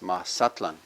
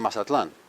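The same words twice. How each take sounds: First: The stress falls on the second-to-last syllable. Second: The stress falls on the final syllable. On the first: "But in Nahuatl, it's Mazatlan"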